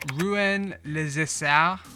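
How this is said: It is said in a French accent. "I'm going to try and do this with a French accent"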